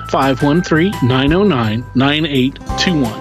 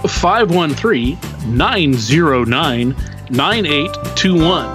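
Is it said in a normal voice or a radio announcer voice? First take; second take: normal; radio announcer. First: It is said in his normal speaking voice. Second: It is said in a put-on radio announcer voice.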